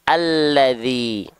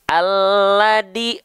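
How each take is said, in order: First: The middle consonant is a soft dh sound. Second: The middle consonant is a plain d sound. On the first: The speaker calls it right. "tapi alladzi" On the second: The speaker calls it wrong. "bukan alladi"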